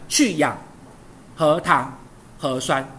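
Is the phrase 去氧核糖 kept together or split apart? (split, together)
split. The phrasing breaks 去氧核糖 apart. The speaker calls it wrong. "请你不要断成去氧核糖核酸，错了哦"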